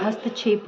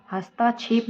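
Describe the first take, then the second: First: "हस्तक्षेप" with short "ta"; correct short vowel. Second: "हस्ताक्षेप" with long "taa"; wrong long vowel. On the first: Teacher gives the correction, short-vowel "हस्तक्षेप". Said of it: "होता है". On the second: Teacher rejects the mistake, long-aa "हस्ताक्षेप". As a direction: stretch ता in "हस्ताक्षेप". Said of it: "नहीं होता है". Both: Shown as a demonstration.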